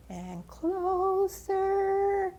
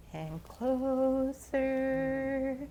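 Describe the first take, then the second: First: Very slow, higher drawn-out "closer"; rising suspense. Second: Very slow, stretched "closer"; drawn-out suspense. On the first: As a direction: pull "closer" out long and higher as the tension peaks. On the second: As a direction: stretch each word as the snake inches in. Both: A narrator's reading. Snake creeping closer.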